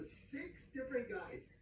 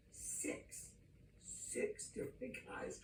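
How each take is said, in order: First: Said in the usual way. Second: Whispered, slow emphatic repeat; hushed whisper. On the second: Real, not acted. Preacher repeating the count to his audience, slow whisper.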